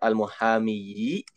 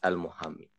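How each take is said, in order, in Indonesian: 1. Kata itu berakhir dengan vokal akhir bersuara 'yi'. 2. Kata itu berakhir dengan 'i' panjang biasa. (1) "harusnya al-muhamiyi" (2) "tidak diucapkan kasrohnya"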